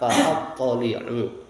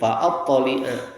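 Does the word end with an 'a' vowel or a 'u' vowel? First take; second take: u vowel; a vowel. First: The word ends with a 'u' vowel. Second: The word ends with an 'a' vowel. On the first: The verb is joined to the earlier verb. "Kalau dibaca rofa" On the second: The verb answers the earlier command. "dapat dibaca dengan nasab"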